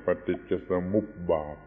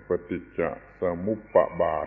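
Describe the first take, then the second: First: ปฏิจจสมุปบาท as pa-tit-ja-sa-mup-bat; correct Thai pronunciation. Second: ปฏิจจสมุปบาท with an extra syllable, sa-mup-pa-bat; wrong spelling pronunciation. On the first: Teacher giving the Thai form we must use, ปฏิจจสมุปบาท said sa-mup-bat. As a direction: run mup straight into bat in ปฏิจจสมุปบาท, no pa between. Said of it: "เราก็ต้องออกเสียงว่า". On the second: Teacher mimicking misreaders of the spelling, ปฏิจจสมุปบาท said sa-mup-pa-bat. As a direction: sound the written p twice in ปฏิจจสมุปบาท, adding pa before bat. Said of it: "มีตัวปออยู่นั้น ก็จะไปออกเสียงว่า".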